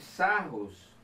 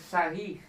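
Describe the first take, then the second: First: The name is read as it is spelled. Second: The name is said the French way. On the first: "aqui se escreve Sarros" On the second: "se pronuncia Sarris, porque é francês"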